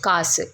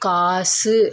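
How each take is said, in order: First: The final u vowel is cut short. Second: The final u vowel is held full length. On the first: The speaker calls it right. "அதை குறைச்சி காசு அப்படி தான் சொல்லுவோம்" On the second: The speaker calls it wrong. "ஒரு மாத்திரை அளவாக நம்ம ஒலிக்க மாட்டோம்"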